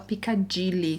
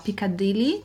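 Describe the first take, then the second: First: The D is said heavily, like a J sound. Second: The D is said softly and lightly. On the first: The speaker calls it wrong. "eu falava Piccadilly, que pra eles soam como se fosse um som de um G" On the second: The speaker calls it right. "com o D mais suave"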